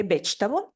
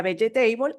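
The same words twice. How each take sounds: First: Second vegetable in two syllables, VECH-tabol; learned correct pronunciation. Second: First vegetable in four syllables, be-ye-TEI-bol; Spanish-style mispronunciation. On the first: Learner finally getting it right, two-syllable vegetable. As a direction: say vegetable English-style, stressed first and shortened. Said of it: "hasta que dije". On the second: Learner recalling her old error, four-syllable vegetable. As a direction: sound every vowel of vegetable as in Spanish. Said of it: "yo decía". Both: Retold or imitated.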